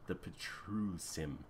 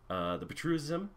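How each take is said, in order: First: The name is articulated clearly and distinctly. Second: The name is slurred and run together. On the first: The speaker calls it right. "There we go" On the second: The speaker calls it wrong. "I'm slurring that name"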